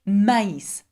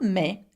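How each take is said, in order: First: The two vowels are said as separate sounds. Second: The two vowels merge into one sound. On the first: The speaker calls it right. "I must separate it from the A" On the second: The speaker calls it wrong. "I pronounce this word not me"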